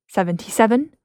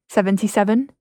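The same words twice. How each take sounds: The two takes are said the same way.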